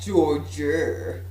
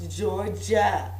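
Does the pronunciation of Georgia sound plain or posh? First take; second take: posh; plain. First: It is pronounced in an affected, posh-sounding way. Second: It is pronounced in a plain, ordinary way. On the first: The speaker calls it wrong. "not Georgia" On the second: The speaker calls it right. "Let's pronounce it Georgia"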